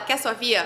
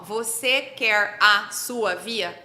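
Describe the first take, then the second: First: Words are dropped and the sounds run together. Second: Every word is said fully and separately. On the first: "Como que as pessoas falam... A pessoa fala" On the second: "alguém que fala assim"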